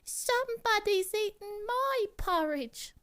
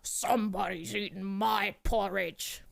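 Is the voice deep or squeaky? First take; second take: squeaky; deep. First: A small, high, squeaky voice says it. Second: A big, deep, gruff voice says it. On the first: A small baby bear is speaking. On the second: A large adult bear is speaking.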